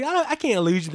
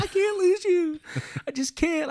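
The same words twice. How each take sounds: First: Raised, loud emotional plea; retold plea before crying. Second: Very high, loud mock-tearful plea; retold crying plea. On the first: Grandson pleads with grandma before the tears, loud retold plea. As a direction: re-enact pleading, higher and louder. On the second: Grandson cries he can't lose grandma, high loud imitation of crying. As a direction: act out breaking into tears, pitch way up. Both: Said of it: "Then I start crying right there".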